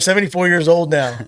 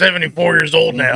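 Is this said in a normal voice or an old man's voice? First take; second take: normal; old man's. First: It is read in his normal speaking voice. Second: It is said in a put-on old man's voice.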